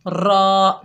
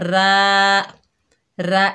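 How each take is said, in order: First: The letter is said heavy, with full mouth. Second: The letter is said thin and light. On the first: The speaker calls it right. "अरबी में हमने इसको मोटा पढ़ना है" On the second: The speaker calls it wrong. "इस तरह नहीं पढ़ना"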